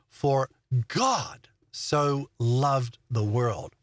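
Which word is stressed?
God. The stress is on the word God.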